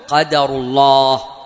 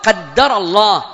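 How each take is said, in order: First: The d sound is short and single. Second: The d sound is doubled and held. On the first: What happened is the decree of God. "إن شئت بالتخفيف" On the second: God decreed it. "هذا تقديره"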